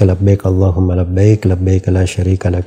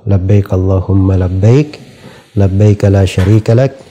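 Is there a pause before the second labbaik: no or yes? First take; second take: no; yes. First: It runs on without pausing before each labbaik. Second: It pauses so each segment begins with labbaik. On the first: The speaker calls it wrong. "yang populer itu di orang-orang" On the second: The speaker calls it right. "potongan dan seper, uh, berhenti seperti itu itu lebih bagus"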